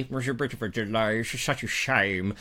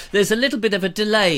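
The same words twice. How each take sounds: First: Mock mournful voice. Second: Said in the usual way. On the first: Repeat in a put-on voice.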